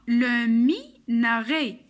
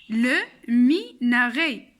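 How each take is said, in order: Both takes have the same delivery.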